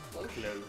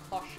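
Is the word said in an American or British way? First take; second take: American; British. First: It is said with an American pronunciation. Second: It is said with a British pronunciation. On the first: "I'm not sure that is the American pronunciation. It might be a cloche" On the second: "I know they say cloche in Great Britain"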